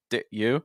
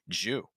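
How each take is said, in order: First: The d is held without release before you. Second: Both words shrink into one syllable, jew. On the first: "with kind of a held sound"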